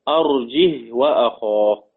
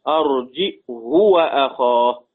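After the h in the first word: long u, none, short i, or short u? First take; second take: none; short u. First: It has no glottal stop and no vowel after h. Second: It has a glottal stop and a short u after h. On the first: "سكون الهاء بدون همز" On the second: "بضم الهاء وقصرها"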